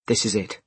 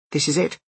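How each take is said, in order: First: "This is it." level, falling at the end; matter-of-fact confirmation. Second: "This is it?" higher, rising at the end; disbelieving question. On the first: Ed answering Jess on arrival, matter-of-fact falling "This is it.". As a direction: answer "This is it." evenly, closing downward. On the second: Jess on arriving at the building, disbelieving "This is it?" rising. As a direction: ask "This is it?" with the pitch lifted. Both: Acted.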